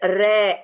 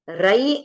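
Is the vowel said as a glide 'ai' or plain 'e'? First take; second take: e; ai. First: The vowel is a plain 'e'. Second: The vowel glides like 'ai'. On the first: "या फिर रे ऐसा बोल दिया तो भी" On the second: "रई बोला जाता है"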